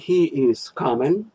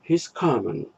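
First: The verb is said as a separate full word. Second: The verb is contracted onto the pronoun. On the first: "Предложение he is coming" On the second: "в живой поточной речи звучит he's coming"

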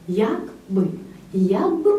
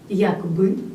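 First: The stress is on the first syllable. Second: The stress is on the second syllable. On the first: It is an adverb 'how' with a particle. "за допомогою наголоса ми увиразнюємо слово «як»" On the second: It is a conjunction meaning 'if'. "наголос виразно падає тут на другий склад"

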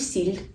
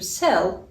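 First: The final L is soft, palatalized. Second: The final L is hard, not palatalized. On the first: The speaker calls it wrong. "Тобто я не кажу сіль" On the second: The speaker calls it right. "кажу сел"

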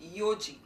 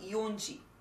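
First: It is said without an n sound before ji. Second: It is said with an n sound before ji. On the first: The speaker calls it right. "It would be read as yoji" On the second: The speaker calls it wrong. "Not yonji"

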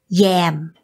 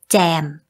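First: The word begins with a y sound. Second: The word begins with a z sound. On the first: It means the food spread on bread. "with the consonant y" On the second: It means to join in or improvise. "with the z, z consonant"

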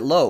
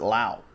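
First: The vowel sounds like the vowel in 'go'. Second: The vowel sounds like the vowel in 'now'. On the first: This is one player's own way of saying the family name. "He pronounces it Lowe" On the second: This is the teammate's own way of saying the family name. "His teammate Brandon pronounces it Lau"

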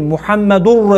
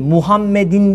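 First: The word ends with the sound -ur. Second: The word ends with the sound -in. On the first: The speaker calls it right. "Orada mübteda haber ötre var" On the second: The speaker calls it wrong. "değil"

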